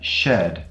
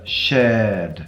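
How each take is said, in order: First: The vowel is short. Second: The vowel is drawn out long.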